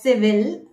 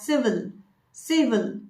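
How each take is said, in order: First: "civil" as si-VIL with a full second i; spelling pronunciation. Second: "civil" as SIV-ul with a reduced ending; correct pronunciation. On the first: Coach showing the form from spelling, spelling pronunciation. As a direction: say "civil" with a clear vil ending. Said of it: "As per the spelling". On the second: Coach correcting the spelling form, correct pronunciation. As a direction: weaken the end of "civil" to vul. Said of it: "You should pronounce it as". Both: Shown as a demonstration.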